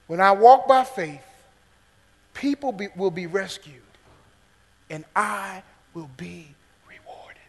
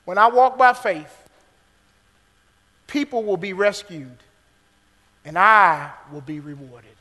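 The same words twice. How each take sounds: First: Fading to whisper. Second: Said in the usual way. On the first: Shown as a demonstration. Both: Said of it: "remember this main point".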